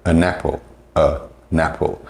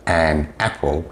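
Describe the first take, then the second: First: "an apple, a napple" with n carried onto the second word; linked n. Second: Said in the usual way. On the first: Shown as a demonstration. Teacher showing connected speech, "a napple". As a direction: break it as uh, napple. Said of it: "it will sound like". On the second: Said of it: "something as simple as".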